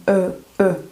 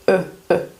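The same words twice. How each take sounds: No difference in how they are said.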